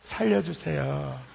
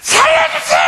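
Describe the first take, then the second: First: It is said calmly and politely. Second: It is shouted desperately.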